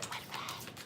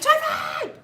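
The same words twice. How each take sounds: First: It is whispered softly. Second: It is screamed loudly.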